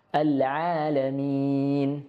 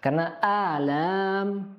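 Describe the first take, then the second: First: "Al-alamin" very slow, throaty ain; slow, correct "Al-alamin". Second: "alam" said slow with a plain hamzah-like start; slow mistaken "alam"; wrong letter demo. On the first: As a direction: draw out "Al-alamin" with a clear ain. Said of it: "al-alamin artinya adalah alam semesta". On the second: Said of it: "itu artinya penyakit-penyakit". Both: Shown as a demonstration.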